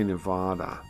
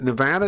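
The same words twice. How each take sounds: First: Nevada is said the way outsiders pronounce it. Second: Nevada is said the way residents pronounce it. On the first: The speaker has never really lived there. The speaker calls it wrong. "They say Nevada. That's what politicians say" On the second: The speaker lives there. The speaker calls it right. "Nevada is how you say it"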